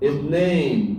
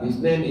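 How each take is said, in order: First: The second syllable has a long, stressed vowel. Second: The second syllable has a short vowel. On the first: The speaker calls it right. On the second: The speaker calls it wrong. "nggak paham mereka, ya, karena nggak ada panjangnya"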